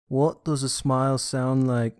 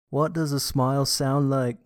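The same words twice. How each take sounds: First: The voice sounds plain, without a smile. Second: The voice sounds bright, with a smile. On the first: "when we say something without a smile" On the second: "when we say the same thing with a smile"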